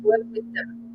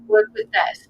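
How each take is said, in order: First: Said in the usual way. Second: "Work with that" said louder and higher, punching "Work"; emphatic repeat. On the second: Shown as a demonstration. Reader urging the sitter, stressing "Work". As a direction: hammer home "Work" the second time.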